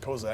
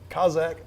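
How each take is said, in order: First: The word is said as spelled, unlike Cossack. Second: The word is said to rhyme with Cossack. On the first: "just Kozak because that's the way it's written" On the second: "Kazakh rhyming with Cossack"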